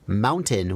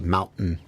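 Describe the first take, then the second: First: The middle T is clearly pronounced as a T. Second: The middle T is replaced by a glottal stop. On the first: "we don't say mountain" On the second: "where we like glottalize the T"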